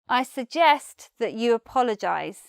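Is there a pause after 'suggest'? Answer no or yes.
no. It runs on with no pause after suggest.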